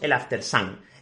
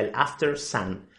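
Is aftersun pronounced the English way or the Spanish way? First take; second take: Spanish; English. First: Aftersun is pronounced with Spanish sounds. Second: Aftersun is pronounced with English sounds. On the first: "En España le decimos el aftersun" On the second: "en realidad la pronunciación correcta sería el aftersun"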